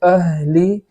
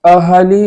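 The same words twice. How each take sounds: First: The h is breathed through with no vowel. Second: A vowel is added after the h sound. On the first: The speaker calls it right. "बल्कि अहली इस तरीके से पढ़ेंगे" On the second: The speaker calls it wrong. "इस तरीके से नहीं पढ़ेंगे"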